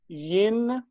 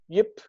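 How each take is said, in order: First: The prefix ends with an n sound. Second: The prefix ends with a p sound. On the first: The underlying form before the n assimilates. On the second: The n has assimilated to the following consonant.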